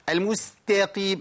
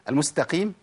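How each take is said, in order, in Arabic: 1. يُضاف مدّ طويل بعد التاء. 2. التاء تتصل بالقاف مباشرة. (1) "يقول لك المستقيم المستقيم. ليه يا اخي؟ ليه تتعب نفسك وتتعب الفك وتكيد نفسك وتولد مدود؟" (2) "هو في بعد التاء الف مش تاء قاف على طول؟"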